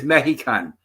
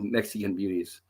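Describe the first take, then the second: First: "Mexican" with an h sound, meh-hi-can; "Mexican" said like Spanish mejicano, breathy h in the middle; Spanish-style Mexican. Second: Said in the usual way. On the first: Retold or imitated. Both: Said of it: "that's why it does say M E J".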